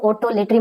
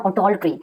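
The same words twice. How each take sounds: First: Otolotry with an extra vowel before the final -try; otolotry, adding a syllable after the L; mispronounced otolotry. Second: Otoltry with L running straight into -try; otoltry, no vowel between L and T; correct otoltry pronunciation. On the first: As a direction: say otolotry as a misreading, oto-LET-ree. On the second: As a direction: say otoltry as oh-TOL-tree. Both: Shown as a demonstration. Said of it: "इसको otolotry मत पढ़ना".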